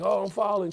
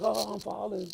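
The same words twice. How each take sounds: First: Much higher and louder mocking wail; exaggerated falling cry; mock panic. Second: High, loud sneering echo; taunting parody of a cry; mocking mimicry. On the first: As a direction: ham up a frightened plea. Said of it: "You're like". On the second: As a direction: mimic the victim to mock them. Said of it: "She's like".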